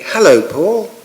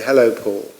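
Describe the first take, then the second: First: It is said warmly, with the voice going up. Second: It is said in a flat, neutral tone. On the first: "When I'm doing friendly, ... So the voice goes up for friendly, and you have a warmth" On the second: "when I'm doing neutral"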